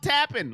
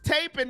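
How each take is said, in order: First: The first vowel is short, as in 'tap'. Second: The first vowel is long, as in 'tape'. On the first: The speaker calls it wrong. "not tapping. Like you're tapping out" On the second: The speaker calls it right. "Thank you for letting me know it's taping"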